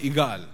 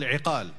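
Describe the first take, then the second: First: The middle consonant is a hard g. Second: The middle consonant is a deep throat q. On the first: This is the colloquial form of the word. "because the qaf, they pronounce it like a gaf" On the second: This is the standard form of the word. "they are till today called iqal"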